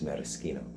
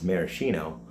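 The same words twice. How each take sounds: First: It is said with the Italian pronunciation. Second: It is said the common, everyday way. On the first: "the Italian pronunciation is" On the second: "commonly said as"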